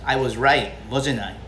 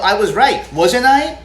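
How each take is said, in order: First: Wasn't I drops low, knowing; falling tag tune. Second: Wasn't I rises high and loud, really asking; rising tag tune. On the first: Telling the friend who came back empty-handed, falling tune. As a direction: let the pitch sink on wasn't I. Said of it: "Aquí estás bajando la entonación". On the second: Contrast take, the teacher showing the wrong rising tune. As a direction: push the tune up on wasn't I as a true question. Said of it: "No estás diciendo". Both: Shown as a demonstration.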